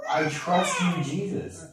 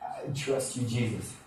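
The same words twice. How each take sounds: First: Higher, strained mock yell; retold yell. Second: Soft, throaty, barely-there prayer; little throaty. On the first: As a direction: act out yelling at the windshield, held back. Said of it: "I'm yelling it at the windshield". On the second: Retold or imitated. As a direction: say it small, from the throat. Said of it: "like, little throaty".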